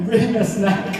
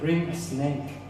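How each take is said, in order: First: The last word has a short 'a' vowel. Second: The last word has a long 'ay' vowel. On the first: "Snack pala" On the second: "Snake yung pang-pronounce"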